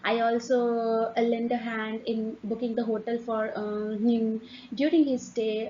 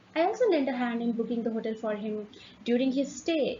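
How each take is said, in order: First: It is broken by hesitations and filler sounds. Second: It flows smoothly without hesitations or filler sounds. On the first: The speaker calls it wrong. "You're not just doing, uh" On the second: The speaker calls it right. "you're just moving ahead"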